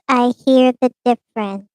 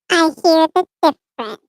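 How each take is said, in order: First: The voice is processed to sound like a woman. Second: The voice is processed to sound like a baby. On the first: "Female change voice" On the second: "Baby change voice"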